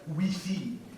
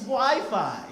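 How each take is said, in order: First: It is pronounced the French way. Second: It is pronounced the American English way. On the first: The speaker calls it wrong. "if you try to make it in France" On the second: The speaker calls it right. "pronounce it in the original Americanese pronunciation"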